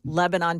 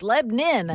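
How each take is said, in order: First: It is said the Pennsylvania way. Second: It is said the Tennessee way. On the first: "That we say Lebanon, Pennsylvania" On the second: "You come down here and it's like, no, no, it's Lebanon"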